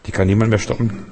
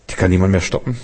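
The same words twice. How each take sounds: The two takes are said the same way.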